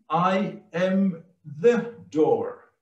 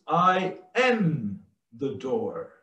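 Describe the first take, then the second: First: Slow and spaced, "the" picked out as a full word, falling on "door"; stress on THE. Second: Slow, "am" held long and prominent, "the door" falling; stress on AM. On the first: Preacher underlining that there is only one door, stress on "the". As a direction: punch "the" before a falling "door". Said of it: "we can underline". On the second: Preacher giving the second emphasis, stress on "am". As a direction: linger on "am", letting the rest drop. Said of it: "second emphasis is". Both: Shown as a demonstration.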